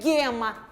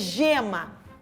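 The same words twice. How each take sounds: First: It begins with a hard g sound. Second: It begins with a soft j sound. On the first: The speaker calls it wrong. "Não é gema" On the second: The speaker calls it right. "é gema"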